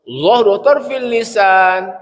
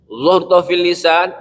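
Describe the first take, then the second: First: "Dhahru fil lisan" drawn out very slowly, each sound held; very slow demonstration. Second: "Dhahru fil lisan" said slowly, syllable by syllable; slow Arabic term. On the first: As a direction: teach "Dhahru fil lisan" at half speed. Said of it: "Nih ya". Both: Shown as a demonstration.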